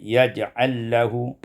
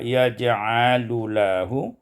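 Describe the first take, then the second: First: The two l sounds merge into one. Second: The two l sounds are kept apart.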